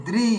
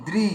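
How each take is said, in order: No difference in how they are said.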